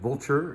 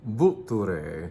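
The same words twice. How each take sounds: First: It sounds like the English word vulture. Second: It is said with Italian pronunciation and emphasis. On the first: The speaker calls it wrong. "It looks like vulture if you see it on in print" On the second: The speaker calls it right. "but you say Vulture"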